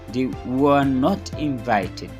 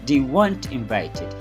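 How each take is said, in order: First: The verb and not are said separately. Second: The verb and not are joined together.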